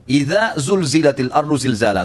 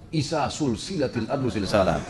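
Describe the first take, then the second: First: The second word begins with a z sound. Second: The second word begins with an s sound. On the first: When the earth is shaken violently. The speaker calls it right. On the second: It means linked together like a chain. The speaker calls it wrong.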